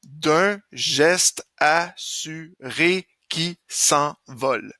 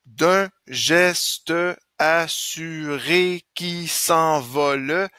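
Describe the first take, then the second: First: Slow syllables, "geste" as gest, "s'envole" as s'en-vol; no final e on "geste" or "s'envole": gest, s'en-vol; final e dropped. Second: Slow syllables, "geste" as ges-te, "s'envole" as s'en-vo-le; every e sounded. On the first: Teacher rereading for eight syllables, saying "geste" as gest, "s'envole" as s'en-vol. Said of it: "Je vais le lire différemment". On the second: Teacher testing the count, sounding final e in "geste" and "s'envole". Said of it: "il y en a plus que huit". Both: Shown as a demonstration.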